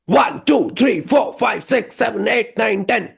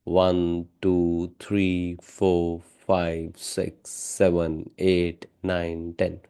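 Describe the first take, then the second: First: The counting is forceful and full of energy. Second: The counting is slow, plain and quiet. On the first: "जैसे आप जोश डाल रहे हो" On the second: "एक simple, ... मैं धीरे बोल रहा था"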